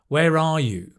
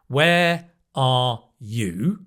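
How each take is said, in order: First: Words run together with a linking r sound. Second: Words are said separately with no linking r sound. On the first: "I'll say it more naturally. ... It's the r" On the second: "the phrase like a book"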